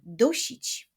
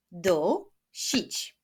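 First: Said in the usual way. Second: "Dusić" with a clear gap between syllables; split into syllables. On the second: Shown as a demonstration. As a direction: clap out "Dusić" beat by beat. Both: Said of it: "Wyklaszczmy sylaby w wyrazie".

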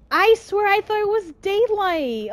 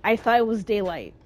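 First: Frustrated protest. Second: Said in the usual way. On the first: Real, not acted. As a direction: protest in disbelief. Insisting it was daylight.

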